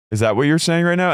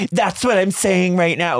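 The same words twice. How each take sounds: First: Incredulous question, pitched high and rising at the end; Shannon. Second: Exaggerated high, drawn-out mimicry; Tamara mocking Shannon. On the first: Retold or imitated. Shannon challenging Tamara after being yelled at, high incredulous question. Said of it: "And then Shannon goes". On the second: Tamara parroting Shannon back at her, high mocking imitation. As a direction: throw the words back in a slow, high mocking voice. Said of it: "Like, she imitates Shannon".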